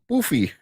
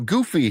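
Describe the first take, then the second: First: The word starts without a hard G sound. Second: The word starts with a hard G sound. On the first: The speaker calls it wrong. "He's like he's like" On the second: The speaker calls it right. "I'm like, oh"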